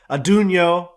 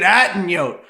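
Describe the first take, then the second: First: The name begins with an 'adun' sound. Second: The name begins with an 'atten' sound. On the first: The speaker calls it right. "It's called Adunio" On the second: The speaker calls it wrong. "you've been saying it wrong"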